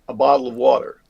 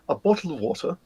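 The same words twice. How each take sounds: First: It is said in an American accent with softened t's. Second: It is said in a standard Southern British accent. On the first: "we go across to America, and what we do is we soften the T's down" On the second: "which would be standard Southern British"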